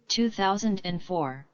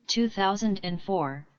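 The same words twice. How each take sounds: The two takes are said the same way.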